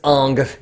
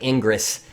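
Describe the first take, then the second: First: The name is said in one syllable. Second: The name is said in two syllables. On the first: The speaker calls it right. "It's Ong" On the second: The speaker calls it wrong. "it looks like Ingress"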